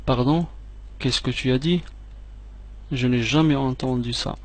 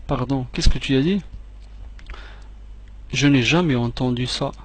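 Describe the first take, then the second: No difference in how they are said.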